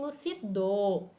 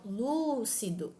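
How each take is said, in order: First: The stress is on the last syllable. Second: The stress is on the first syllable. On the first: The speaker calls it wrong. "nem lucido" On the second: The speaker calls it right. "pode ser pronunciada de modo lúcido"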